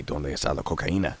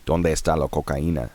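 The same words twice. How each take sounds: First: Put-on joking American-accented Spanish; bad American accent on the Spanish line; awful Spanish accent. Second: Mock tourist Spanish, flat American vowels; Spanish said with a thick American accent; gringo Spanish. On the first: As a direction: toss off the running joke in bad Spanish. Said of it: "my awful, awful accent". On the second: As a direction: ask it like a clumsy English speaker trying Spanish. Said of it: "tell me if my pronunciation is right".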